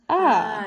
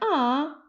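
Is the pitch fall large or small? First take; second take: large; small. First: It starts high and falls a lot. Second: Its pitch falls only a little.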